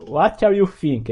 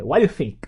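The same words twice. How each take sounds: First: "What are you think?" slowly, every word separate; careful separate words. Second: "What you think?" quick, with "are" swallowed; words run together. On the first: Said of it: "eles não falam". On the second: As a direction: squash "What you think?" into one linked word. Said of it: "Eles juntam tudo pra falar". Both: Shown as a demonstration.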